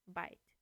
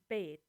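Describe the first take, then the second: First: The word has its modern vowel. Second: The word has its fourteenth-century vowel. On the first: "And only by nineteen hundred, bite" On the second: "In thirteen hundred, bite would sound like bait"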